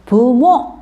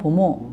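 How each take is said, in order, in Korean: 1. 첫 번째 모음은 분명한 'u' 소리예요. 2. 첫 번째 모음은 'o' 소리처럼 들려요. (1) "부모 이렇게" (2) "티베트 사람들이 약간 보모 보모 이렇게 발음한다는 거"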